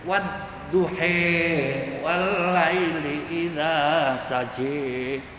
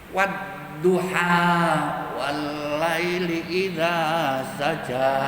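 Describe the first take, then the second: First: The final vowel is bent toward 'e'. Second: The final vowel is a plain open 'a'.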